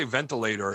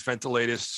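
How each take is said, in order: First: Said in the usual way. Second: VENTILATORS broken up like three separate words; mimicked pronunciation. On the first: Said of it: "he wouldn't say ventilator". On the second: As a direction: split "ventilators" into separate chunks, imitating him. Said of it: "like, three separate words".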